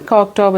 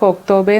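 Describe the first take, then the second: First: The name ends on a consonant, without a vowel. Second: The name ends with an audible final vowel. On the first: This is a reading based on the spelling. The speaker calls it wrong. "പക്ഷേ ഞങ്ങൾ" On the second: This is how the local people say it. The speaker calls it right. "ശരിക്കും അവിടുത്തെ locals pronounce ചെയ്യുന്നത്"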